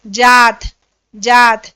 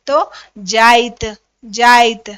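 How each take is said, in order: First: जात with a plain long aa; Hindi जात. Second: जाइत slowly, aa gliding into i; Nagpuri जाइत. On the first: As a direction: say जात plainly, loud and clear. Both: Shown as a demonstration. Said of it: "Nagpuri में कैसे बोलते हैं".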